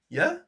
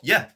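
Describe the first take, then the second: First: The yeah sounds hesitant and uncertain. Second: The yeah sounds sure and enthusiastic. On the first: The person is not really keen. "said it like" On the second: The person really wants to do it. "it's not yeah, it's a little bit unsure"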